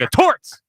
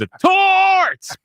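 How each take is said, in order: First: The word torts is said short and plain. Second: The word torts is stretched out and yelled. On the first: "It wasn't just like" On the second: "like the extended torts"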